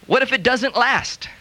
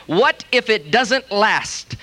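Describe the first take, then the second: First: Doubtful question. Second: Slow, drawn-out mocking repeat. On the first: Retold or imitated. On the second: Preacher repeating the doubters' line, slow and mocking. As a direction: drag it out to show how negative. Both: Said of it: "more negative, faith-stealing, unbelieving statement".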